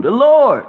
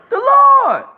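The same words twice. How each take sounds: First: Raised, louder proclamation; called out. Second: Much higher, louder, piercing cry; shrieked proclamation. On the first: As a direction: call out the Lord's name firmly. Preacher answering his own question. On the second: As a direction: hurl the name out at the top of the voice. Preacher repeating, climbing in fervour. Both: Real, not acted.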